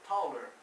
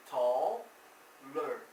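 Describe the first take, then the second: First: Said in the usual way. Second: "Taller" broken into "tall", pause, "ler"; slow two-piece "Taller" for learners; split syllables. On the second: Shown as a demonstration. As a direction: pull "Taller" apart slowly at the ending. Teacher separates stem from ending.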